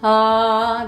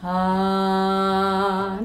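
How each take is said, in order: First: It is said in a stronger voice. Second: It is said in a weak, soft voice.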